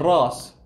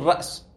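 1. الهمزة تتحول إلى حرف مد طويل. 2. في الكلمة همزة في الوسط. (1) "تقول رأس. رأس أخف" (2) "أنت ما تقول رأس"

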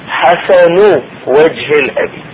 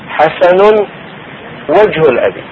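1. تنتهي كلمة "wajh" بحركة i. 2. تنتهي كلمة "wajh" بحركة u. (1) "مجهور" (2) "مرفوع"

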